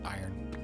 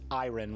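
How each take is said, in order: First: The R in the middle is silent. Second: The R in the middle is pronounced. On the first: The speaker is saying it normally. The speaker calls it right. "the way it's supposed to be said" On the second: The speaker is being silly. The speaker calls it wrong. "when I'm being ridiculous"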